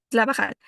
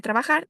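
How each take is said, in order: First: "trabajar" said as labajal, each r turned to l. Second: Said in the usual way. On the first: Shown as a demonstration. Student presenter showing Kichwa-influenced Spanish, "trabajar" with l for r. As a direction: say "trabajar" with l in place of both r sounds. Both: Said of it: "En vez de decir trabajar".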